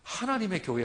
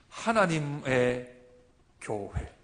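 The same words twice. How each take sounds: First: The two words run together without a pause. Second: There is a short pause between the words. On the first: It names one particular group as a proper noun. The speaker calls it wrong. "하면 안 됩니다" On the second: It means a church that belongs to God. The speaker calls it right. "띄우면 됩니다"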